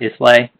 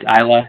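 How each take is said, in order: First: The S is pronounced in the word. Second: The S is silent in the word. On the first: The speaker calls it wrong. "not Islay" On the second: The speaker calls it right. "It's Islay, So the S is kind of like an island"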